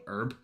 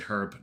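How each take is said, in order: First: The word begins without any h sound. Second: The word begins with a clear h sound. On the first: This is the form that fits 'an herb'. "not herb" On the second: This is how the speaker learned to say it. "I was brought up to say herb"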